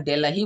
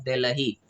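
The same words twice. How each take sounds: First: "दिल्ली" with a hard retroflex D, as in duck; wrong-example "दिल्ली", English-style hard D. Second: "दिल्ली" with tongue-on-teeth soft d; lower, softer "दिल्ली" with dental d; correct-example "दिल्ली", soft Hindi d. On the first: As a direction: mispronounce "दिल्ली" as Dillee with curled-tongue D. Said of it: "नहीं, हम डी को द में". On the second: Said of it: "हम डी को द में". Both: Shown as a demonstration.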